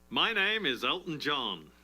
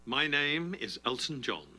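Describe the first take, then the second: First: It is said in a showy, theatrical way. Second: It is said in a restrained, low-key way.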